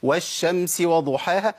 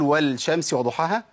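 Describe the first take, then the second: First: والشمس said 'wash-shamsi' with doubled SH; measured recitation, L assimilated in والشمس; merged lam. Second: والشمس said 'wal-shamsi' with audible L; faulty recitation sounding the L in والشمس; unmerged lam. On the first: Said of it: "مش احنا بنقولها كده؟". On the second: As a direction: wrongly keep the L before SH in والشمس. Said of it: "لا، ما ينفعش". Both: Shown as a demonstration.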